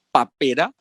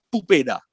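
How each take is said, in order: First: The first vowel is an a sound. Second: The first vowel is a u sound.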